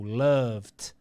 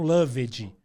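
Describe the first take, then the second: First: The ending is only a short consonant sound. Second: The ending is pronounced as an extra syllable. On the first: The speaker calls it right. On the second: The speaker calls it wrong.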